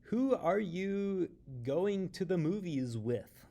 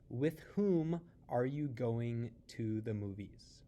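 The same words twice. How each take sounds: First: "Who are you going to the movies with?" said slowly, high, landing on "with"; slow, exaggerated English example, preposition at the end; stress on the end preposition. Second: "With whom are you going to the movies?" said slowly, "whom" stressed; careful slow grammatical version; correct formal form. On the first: Teacher showing students the English habit, slow and stressed. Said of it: "we like to say things like". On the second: Teacher showing students the correct form, slow and careful. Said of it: "you would also begin that sentence with the word with".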